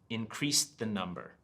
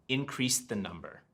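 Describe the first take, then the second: Both takes have the same delivery.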